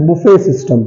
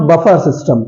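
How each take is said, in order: First: Buffet system with "buffet" as "boo-fe"; silent final T. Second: Buffer system with "buffer" as "buh-far"; wrong pronunciation. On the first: Teacher correcting the village form, silent final T. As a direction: open vowel ending on buffet in buffet system. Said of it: "that's buffet system". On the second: Teacher quoting a village mistake, wrong pronunciation. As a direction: end the first word of buffer system on R. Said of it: "that's not buffer system". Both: Shown as a demonstration.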